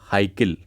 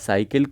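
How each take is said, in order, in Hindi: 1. शब्द की शुरुआत h ध्वनि से होती है। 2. शब्द की शुरुआत s ध्वनि से होती है।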